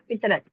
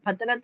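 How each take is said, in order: First: The first syllable has an 'i' vowel. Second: The first syllable has an 'a' vowel. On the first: The speaker calls it right. "फितरत बोलना है हमको" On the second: The speaker calls it wrong. "फ फतरत नहीं बोल सकते ना"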